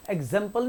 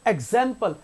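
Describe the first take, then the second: First: एग्जाम्पल with a clipped 'zem'; एग्जाम्पल said without stretching the second syllable; wrongly short vowel. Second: एग्जाम्पल with a long middle vowel; एग्जाम्पल, second syllable held; drawn-out vowel. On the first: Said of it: "एग्जाम्पल नहीं होता". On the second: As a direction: stretch the 'zam' in एग्जाम्पल a little. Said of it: "थोड़ा सा खींच रहे हैं". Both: Shown as a demonstration.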